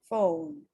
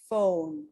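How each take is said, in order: No difference in how they are said.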